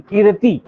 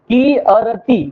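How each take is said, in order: First: कीर्ति said whole as kirti; joined word. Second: की अरति split into ki and arti; split syllables. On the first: Teacher joining the syllables of कीर्ति, smoothly. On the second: Teacher breaking up कीर्ति for students, syllable by syllable. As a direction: sound out की अरति piece by piece. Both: Shown as a demonstration. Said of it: "अर का उच्चारण होगा".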